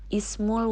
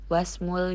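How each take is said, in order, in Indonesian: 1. Bunyi awal 'i' jelas diucapkan. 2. Bunyi awal 'i' dihilangkan dan disambung. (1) "I pada ismul dibaca jelas karena berada di depan" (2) "i pada ismunnya tidak kita baca"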